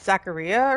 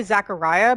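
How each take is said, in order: First: "Zachariah" with an "ee" sound, zack-uh-REE-uh; corrected name pronunciation. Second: "Zachariah" with an "eye" sound, zack-uh-RYE-uh; mistaken name pronunciation. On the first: Player unsure of a character's name, "Zachariah" ending like Maria. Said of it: "but it's Zachariah or something". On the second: Player recalling how a name is said, "Zachariah" rhyming with Mariah. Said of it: "I keep wanting to say". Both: Shown as a demonstration.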